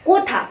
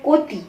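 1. শব্দটি একটি aspirated 'tha' ধ্বনি দিয়ে শেষ হয়। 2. শব্দটি একটি আনঅ্যাসপিরেটেড 'ti' ধ্বনি দিয়ে শেষ হয়।

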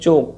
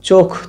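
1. अंतिम व्यंजन अल्पप्राण है। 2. अंतिम व्यंजन महाप्राण है। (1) "ক অল্পপ্রাণ ধ্বনিতে পরিণত হয়েছে" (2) "খ মহাপ্রাণ ধ্বনি"

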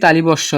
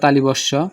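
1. l-এর পরে i ধ্বনি আছে। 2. l-এর পরে i ধ্বনি আছে।

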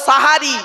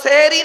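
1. প্রথম স্বরধ্বনিটি 'a' ধ্বনি। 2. প্রথম স্বরধ্বনিটি 'e' ধ্বনি। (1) "শব্দটা সাহারি, দন্তেশ্বয় আকার" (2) "শব্দটা সেহরি নয়, দন্তেশ্বয় একার নয়"

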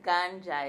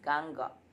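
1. La consonante del medio es un sonido j. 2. La consonante del medio es una g fuerte. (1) "no es Ganja" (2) "es Ganga"

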